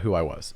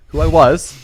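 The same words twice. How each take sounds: First: Said in the usual way. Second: WHO I WAS pushed high and loud; emphatic repeat. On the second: Real, not acted. Clarifying to friends it was his past self, emphatic stress on "Who I was". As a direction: punch "Who I was" much louder and higher.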